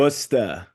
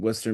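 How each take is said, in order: First: It is said in a local Massachusetts accent. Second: It is said in a neutral general accent. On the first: The speaker calls it right. "You got a mass ac- accent in there somewhere" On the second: The speaker calls it wrong. "Don't say it like that"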